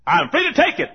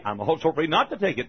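First: High, loud claim of freedom; raised-voice mock insistence; emphatic assertion. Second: Said in the usual way. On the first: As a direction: assert it boldly, setting up the contrast. Asserts freedom as objector would.

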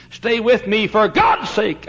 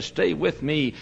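First: Begging, now crying out; urgent plea. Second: A quieter, pleading stay with me; hushed and begging; soft plea. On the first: Dying Paine pleading, louder take. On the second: Dying Paine pleading, soft take. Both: Retold or imitated.

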